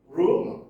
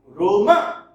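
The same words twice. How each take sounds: First: "rumor" as RU-mor, weight on the opening syllable; corrected "rumor", first syllable stressed, second weak. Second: "rumor" with the last syllable punched high and loud; misplaced stress on the final syllable of "rumor"; wrong stress, second syllable. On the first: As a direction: hit the start of "rumor" and let the ending go light. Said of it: "on the first syllable". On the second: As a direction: say "rumor" as ru-MAH, weight thrown on the end. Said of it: "You, you don't say". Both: Shown as a demonstration.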